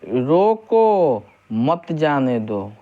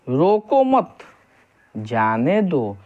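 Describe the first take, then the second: First: There is a pause right after 'roko'. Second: There is a pause right after 'mat'.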